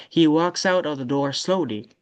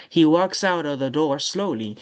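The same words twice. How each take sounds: The two takes are said the same way.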